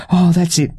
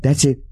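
First: Higher, louder eager cry; thrilled exclamation; excited cry. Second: Said in the usual way. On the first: Acted. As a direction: let "Oh" jump up with delight. She reacts to being bitten.

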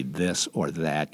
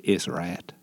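First: Said in the usual way. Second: THIS OR THAT with the TH dropped, as IS RAT; nasal hometown "Is rat" without any TH; Indiana dialect. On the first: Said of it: "you didn't say". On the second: Shown as a demonstration. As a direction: drop the TH sounds, slurring it to IS RAT. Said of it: "it was highly nasal. Uh, there were no T Hs".

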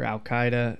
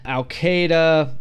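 First: "Al-Qaeda" with KAI like "eye", softer aside; alternative pronunciation. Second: "Al-Qaeda" with KAY in the middle, drawn out; alternative pronunciation. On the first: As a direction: say "Al-Qaeda" as al-KAI-duh, softly. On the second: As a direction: say "Al-Qaeda" as al-KAY-duh, slowly. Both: Shown as a demonstration. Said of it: "whichever way you pronounce it".

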